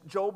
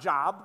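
First: The vowel is a long 'oh' sound. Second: The vowel is a short 'o' sound. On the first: It names the main character of the book. The speaker calls it right. "it's Job" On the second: It means employment or work. The speaker calls it wrong. "not Job, all right? This is not God's employee manual"

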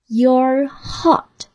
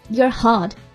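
First: The phrase is spoken slowly. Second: The phrase is spoken at normal speed. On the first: "我们把台词来慢速读一遍。" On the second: "正常语速再来一遍"

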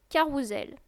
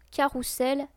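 First: The middle consonant is a voiced z sound. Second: The middle consonant is a voiceless s sound. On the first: The speaker calls it right. "mais se lit carrousel, C-A-2-R-O-U-Z-E-L" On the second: The speaker calls it wrong. "et non carrousel avec deux S"

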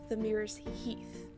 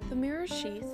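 First: The last word starts with an 'h' sound. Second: The last word starts with an 'sh' sound. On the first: The speaker calls it right. "is in fact pronounced" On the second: The speaker calls it wrong. "a correction to the previous name"

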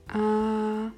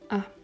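First: The pitch stays high and level. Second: The syllable is short and light, unstressed. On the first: "der erste Ton gleichbleibend" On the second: "der fünfte Ton ist ein neutraler Ton, also keine besondere Betonung"

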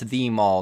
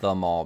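First: 'The' is stressed and said as 'thee'. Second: 'The' is unstressed and said as 'thuh'. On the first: It is a uniquely important mall. The speaker calls it right. "It's the mall, not the mall, because it is, in fact, the mall, which is much more significant" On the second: It is an ordinary mall. The speaker calls it wrong. "no ordinary mall"

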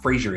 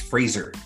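First: The name does not rhyme with razor. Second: The name rhymes with razor. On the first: The speaker calls it wrong. "It's not Fraser" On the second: The speaker calls it right. "Like a razor"

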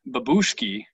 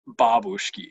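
First: It has an English-style pronunciation. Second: It has a Russian-style pronunciation.

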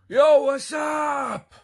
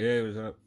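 First: It is screamed loudly in a Jersey style. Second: It is said quietly and casually.

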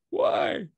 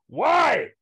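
First: It is said quietly, without yelling. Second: It is yelled loudly.

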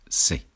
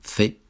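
First: The letter is said in a Latin American accent. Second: The letter is said in a non-Latin American accent. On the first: "en Latinoamérica dicen C" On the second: "en Latinoamérica no dicen C"

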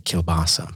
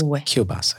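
First: The middle consonant is a plain L sound. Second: The middle consonant is a W sound. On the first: This is the English way of saying it. "We say kielbasa" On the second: This is the original Polish way of saying it. "but it's kielbasa"

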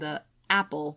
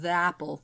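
First: A glottal catch comes before 'apple'. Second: 'The' runs smoothly into 'apple' without a catch. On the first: "we'll just like create an onset, usually like a glottal stop" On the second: "instead of"

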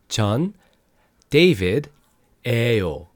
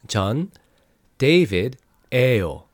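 No difference in how they are said.

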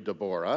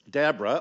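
First: The name is said with Hebrew pronunciation. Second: The name is said with English pronunciation.

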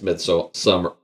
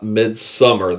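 First: The second part sounds like so-mar. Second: The second part sounds like the word summer. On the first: The speaker calls it right. "It's Somar. So it's I think it's Midsommar" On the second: The speaker calls it wrong. "It is definitely not Midsommar. There's not a summer"

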